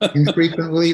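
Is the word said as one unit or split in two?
one unit. It is said as one unbroken word. It happens rarely. "one word"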